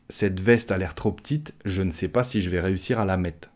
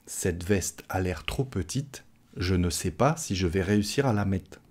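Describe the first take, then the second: First: Quick and run together, "mettre" cut to "mett'"; faster spoken French. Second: Measured, "petite" and "ne" given their full vowels; slower and fully articulated, but "mettre" ends as "mett'"; careful slow version. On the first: Teacher speeds up the jacket sentence, eating letters. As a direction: swallow letters, "petite" as "p'tite", "je vais" squeezed. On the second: Teacher models doubt about a small jacket, slow and careful. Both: Shown as a demonstration. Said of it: "Si je parle plus rapidement".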